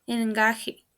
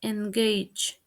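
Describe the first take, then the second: First: "engaje" as en-GAH-heh; mispronounced. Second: "engage" as en-GAYJ; correct pronunciation. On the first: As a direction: say "engaje" Spanish-style, with h for j. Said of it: "mispronounced is". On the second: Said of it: "The correct pronunciation is". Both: Shown as a demonstration.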